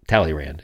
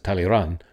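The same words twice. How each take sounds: First: The name is said with an English accent. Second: The name is said with a French accent.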